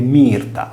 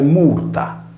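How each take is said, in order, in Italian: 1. La prima vocale si pronuncia come I. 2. La prima vocale si pronuncia come U.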